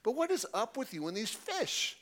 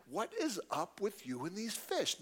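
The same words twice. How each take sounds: First: Put-on bigger Chicago accent, pitched higher with a rising end; Chicago version again. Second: Put-on buddy's blunt Chicago accent, a touch higher; Chicago version. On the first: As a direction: push the Chicago accent harder, questioning. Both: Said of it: "That's the Chicago version".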